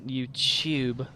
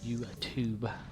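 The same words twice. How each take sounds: First: The second syllable starts with a ch sound. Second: The second syllable starts with a t sound. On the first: The speaker calls it wrong. "There's no ch ch ch sound in it" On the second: The speaker calls it right. "It's T U t t u t u"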